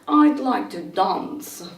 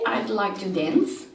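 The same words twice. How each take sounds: First: It has a British accent with a deep vowel. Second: It has an American accent with a flatter vowel. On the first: "in British English ... with a sort of deep uh, dance" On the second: "in American English, with this sort of um, vowel in between A and E"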